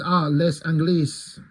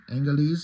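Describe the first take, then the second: First: "les Anglais" said slowly, with the s in "les" sounded and "Anglais" sounded as ang-guh-lees; a hesitant first try at "les Anglais", each syllable drawn out, the final s spoken; French pronunciation attempt. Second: "Anglais" said again as ang-glay with a nasal first vowel and a silent final s; a second, checking try at "Anglais" with a rising tune; corrected French pronunciation. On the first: Podcaster reading a French line aloud, unsure of the pronunciation. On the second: Podcaster correcting his own French pronunciation.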